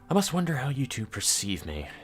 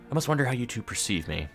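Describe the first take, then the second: First: It is said in a put-on character voice. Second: It is said in his own plain voice.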